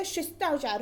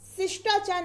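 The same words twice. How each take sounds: First: Said in the usual way. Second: शिष्टाचार starting with s, sishtachar; wrong pronunciation. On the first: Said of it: "शिष्टाचार होता है". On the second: Shown as a demonstration. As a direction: open शिष्टाचार on s instead of sh. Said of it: "शिष्टाचार नहीं होता".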